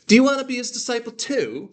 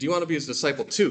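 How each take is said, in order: First: It is said in a posh British accent. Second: It is said in a plain everyday accent. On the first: He is mocking them. "Like he's like he's mocking them almost" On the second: It is an ordinary question. "rather than saying"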